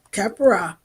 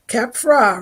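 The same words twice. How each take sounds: First: Kepra opened into three syllables; three-syllable pronunciation. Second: Kepra said in two syllables; two-syllable pronunciation. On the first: Offering listeners another way, Kepra in three syllables. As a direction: say Kepra as KEP-er-ah. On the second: Trying a name for listeners, Kepra in two syllables. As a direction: say Kepra tightly as KEP-ra. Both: Shown as a demonstration. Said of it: "many people say it many ways".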